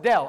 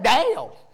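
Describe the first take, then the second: First: The vowel is a short clipped 'eh'. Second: The vowel is drawn out like 'ay'. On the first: "No, it's Dell" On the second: "That's what I said, Dale. Not D-A-L-E"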